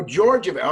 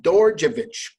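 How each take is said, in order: First: "Georgievich" now starting with a J sound; corrected pronunciation. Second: "Dorjevich" begun with a hard D; wrong first letter. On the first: Host echoing guest's correction, "Georgievich" pronounced with initial J. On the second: Host guessing at guest's last name, "Dorjevich" mispronounced with a D. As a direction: say "Dorjevich" with D in place of J. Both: Real, not acted. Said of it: "I pronounced the wrong letter".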